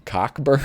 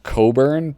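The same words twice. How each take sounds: First: Cockburn with a hard k, COCK-burn; Cockburn, the way the movie characters say it. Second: Coburn with a long o and no k, CO-burn; Coburn, the way the host always assumed it was said. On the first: Retold or imitated. Host mimics how movie characters said Cockburn. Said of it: "they were all calling him Cockburn". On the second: Shown as a demonstration. Host reading Mad names the actor as Coburn. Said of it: "I always thought the name was pronounced Coburn".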